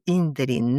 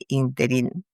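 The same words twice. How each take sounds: First: The stress is on the first syllable. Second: The stress is on the last syllable. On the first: The speaker calls it right. "no con tilde en la última i, sino en la primera" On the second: The speaker calls it wrong. "con tilde en la última i"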